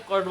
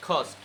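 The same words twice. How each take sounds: First: কস্ট with a plain, unaspirated K. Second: কস্ট with a puff on K, "khost"; aspirated K. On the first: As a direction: say কস্ট with no puff on K. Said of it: "কস্ট বলা যাবে না". (কস্ট, সাধারণ ক দিয়ে) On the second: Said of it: "কি বলতে হবে?". (কস্ট, খ দিয়ে খস্ট) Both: Shown as a demonstration.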